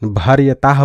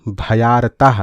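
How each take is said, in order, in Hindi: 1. यह bhar-ya-taah ऐसे बोला जाता है, r के बाद y के साथ। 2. यह bha-yaar-taah ऐसे बोला जाता है, bha के बाद y के साथ। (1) "भर्यताह पढ़ देते हैं" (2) "भ या र ताह"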